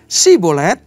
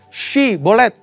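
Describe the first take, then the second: First: The word begins with a plain s sound. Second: The word begins with an sh sound. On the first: The speaker is from the enemy group. The speaker calls it wrong. "nggak pakai y" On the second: The speaker belongs to the group. The speaker calls it right. "pakai y"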